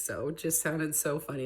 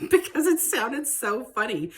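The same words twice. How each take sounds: First: Said in the usual way. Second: Laughing. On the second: Real, not acted. Amused by the words.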